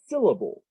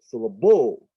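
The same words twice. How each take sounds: First: The stress is on the first syllable. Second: The stress is on the last syllable. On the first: "syll is the one that's got the most stress" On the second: "now it's on the end"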